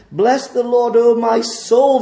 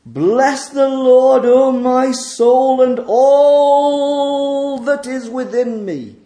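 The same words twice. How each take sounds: First: Said in the usual way. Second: Slow proclaimed psalm. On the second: Acted. Reading the psalm as praise.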